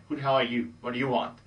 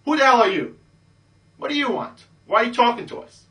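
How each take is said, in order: First: Said in the usual way. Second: Put-on high, loud, snotty hot girl brushing you off; bitchy girl. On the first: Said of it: "ignore what she said". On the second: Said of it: "one of the hot ones says".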